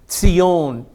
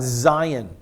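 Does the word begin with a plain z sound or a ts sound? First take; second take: ts sound; z sound. First: The word begins with a ts sound. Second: The word begins with a plain z sound.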